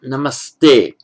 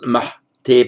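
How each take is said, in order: First: An s sound comes before the t. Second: An h sound comes before the t. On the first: The speaker calls it right. "but namaste" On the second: The speaker calls it wrong. "not mahte"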